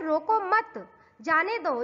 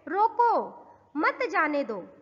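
First: The pause comes after 'mat'. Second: The pause comes after 'roko'.

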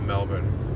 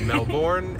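First: Melbourne is said with the local Australian pronunciation. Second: Melbourne is said with the speaker's home pronunciation. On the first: "I'm saying Melbourne as they say it here" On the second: "I know that we say it Melbourne"

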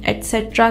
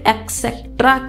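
First: The word begins with an 'et' sound. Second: The word begins with an 'eks' sound. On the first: The speaker calls it right. "जो ET से start होगा" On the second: The speaker calls it wrong. "जो कि बिल्कुल गलत है"

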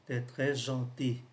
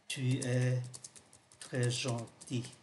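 First: Tu es is contracted into one short syllable. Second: Tu es is said as two full words. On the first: It is the casual, familiar form. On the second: It is the standard form.

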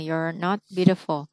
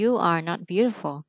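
First: You are is shortened into one quick syllable. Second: You are is said as two separate words. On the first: This is the quicker, more common way to say it. "người ta sẽ đọc kiểu you're not beautiful cho nó nhanh" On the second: This way takes longer to say. "bốn chữ you are not beautiful thì nó hơi bị lâu"

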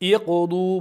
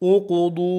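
First: The word begins with an 'i' vowel. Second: The word begins with a 'u' vowel. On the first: The speaker calls it right. "Iqudu bo'ladi" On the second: The speaker calls it wrong. "Uqudu bo'lmaydi"

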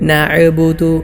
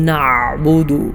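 First: The middle throat sound is a bouncing glottal stop. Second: The middle throat sound is forced and very heavy. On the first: "ഐനിലൊരൽപ്പം കൽക്കല കൊടുത്തുകൊണ്ട് ഹംസ പോലെ" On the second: "ഐനിനെ ശക്തമായി വളരെ കട്ടിയോടുകൂടെ ഉച്ചരിക്കാറുണ്ട്"

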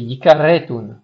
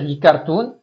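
First: A short e vowel separates the r and t. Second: The r and t join with no vowel between. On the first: The speaker calls it right. "c'est yikaretun" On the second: The speaker calls it wrong. "il faut pas dire yikartun"

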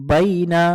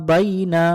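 Both takes have the same delivery.

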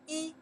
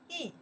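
First: The syllable has a high level tone. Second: The syllable has a falling tone. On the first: "number one, the first tones" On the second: "4 tones"

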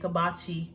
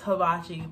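First: The word begins with a k sound. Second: The word begins with an h sound. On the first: The speaker calls it wrong. "It's like I'm saying kibachi" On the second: The speaker calls it right. "but it's hibachi"

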